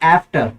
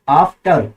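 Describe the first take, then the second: First: It is said with an American accent. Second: It is said with a British accent.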